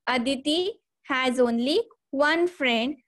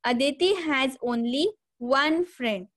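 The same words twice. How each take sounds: First: "one" leaned on, voice rising at the end; "Aditi has only one friend" with weight on "one" and a rising hold before the colon; stress on one, rising. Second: Said in the usual way. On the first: Shown as a demonstration. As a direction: hit "one" and lift into the pause, as if a list follows. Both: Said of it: "example is here".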